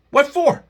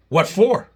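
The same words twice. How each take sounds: First: Much higher and louder, stress on what; escalated second ask; incredulous outrage. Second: Raised, disbelieving what for; first incredulous ask; indignant question. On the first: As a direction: fling the question in disbelief. Repeats question, much higher. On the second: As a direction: demand it with indignation. Indignant rant about lawsuit. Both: Real, not acted.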